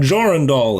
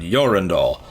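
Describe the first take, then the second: First: The name begins with a J sound. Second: The name begins with a Y sound. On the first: It ignores the Vrykul language. The speaker calls it wrong. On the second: It follows proper Viking pronunciation. The speaker calls it right.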